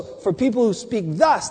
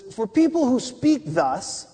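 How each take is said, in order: First: "thus" lifted at the end; stress on thus. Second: PEOPLE WHO SPEAK THUS read with weight; stress on people who speak thus. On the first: Preacher rereading the verse, questioning rise on thus. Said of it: "What does this mean?". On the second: Preacher reading verse to the congregation, leaning on the phrase. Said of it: "Speak, people who speak thus". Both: Shown as a demonstration.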